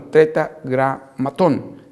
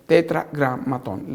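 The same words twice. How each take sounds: First: Said in the usual way. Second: Tetragramatón said slowly, every syllable clear, rising at the end; slow careful spelling-out. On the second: Shown as a demonstration. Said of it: "lo que se conoce como el tetragramatón".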